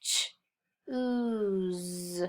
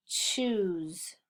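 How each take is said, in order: First: "ch-, ooze" as a short ch, pause, long ooze; sounded out. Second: Said in the usual way. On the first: Shown as a demonstration. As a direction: sound out "ch-, ooze" in two separate parts.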